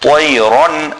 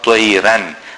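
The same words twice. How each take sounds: First: The r sound is full-mouthed and heavy. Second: The r sound is thin and light. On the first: The speaker calls it right. "the ra is full mouth" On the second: The speaker calls it wrong. "not طيرا"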